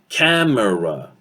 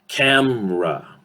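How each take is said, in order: First: The word is said with three full syllables. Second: The word is said with two syllables. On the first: "instead of saying camera, three syllables" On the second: "we reduce it into a two syllable word"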